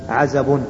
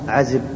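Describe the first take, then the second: First: The vowel after the z is 'a'. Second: The vowel after the z is 'i'. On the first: This is the most eloquent form of the word. The speaker calls it right. "بفتح العين والزاي" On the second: This is the commonly known form of the word. The speaker calls it wrong. "ليس عزب"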